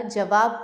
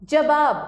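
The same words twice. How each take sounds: First: Said in the usual way. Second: जवाब as jabaab; loud जवाब with b for v. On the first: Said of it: "जवाब होता है". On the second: Shown as a demonstration. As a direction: put b in the middle of जवाब. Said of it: "नहीं होता".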